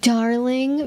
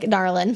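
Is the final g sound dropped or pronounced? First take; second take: pronounced; dropped. First: The final g sound is clearly pronounced. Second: The final g sound is dropped. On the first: "sort of nineteen forties silver screen like Darling" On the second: "just dropping the G entirely on the end"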